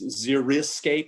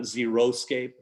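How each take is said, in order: First: The second vowel sounds like 'ih'. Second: The second vowel sounds like 'oh'. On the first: The speaker calls it right. "it's xeriscape" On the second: The speaker calls it wrong. "not xeroscape"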